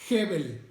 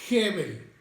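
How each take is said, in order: The two takes are said the same way.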